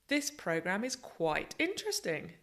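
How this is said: The stress is strong on interesting.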